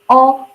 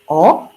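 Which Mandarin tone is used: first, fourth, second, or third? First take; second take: first; second. First: It is said with the first tone. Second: It is said with the second tone. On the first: "the first one like O" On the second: "the second tongue will be O"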